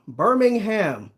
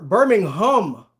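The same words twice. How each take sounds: First: "Birmingham" slowly, last syllable a full "ham"; Birmingham with HAM ending. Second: "Birmingham" slowly, last syllable a rounded "hum"; Birmingham with HUM ending. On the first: Checking with a viewer, "Birmingham" ending in a clear "ham". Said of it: "Am I saying it wrong?". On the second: Copying a viewer's correction, "Birmingham" ending in a stressed "hum". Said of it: "Don't emphasize the hum". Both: Shown as a demonstration.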